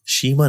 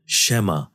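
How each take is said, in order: First: The first vowel is a long 'ee' sound. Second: The first vowel is an 'ai' sound. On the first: The speaker calls it wrong. "शीमा नहीं" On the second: The speaker calls it right. "इसको ज़बर के साथ पढ़ेंगे"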